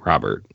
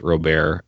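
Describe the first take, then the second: First: It is said like the English first name. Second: It is said unlike the English first name. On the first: The speaker calls it right. "like the first name, American first name" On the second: The speaker calls it wrong. "everyone and their mother thought it was Robert"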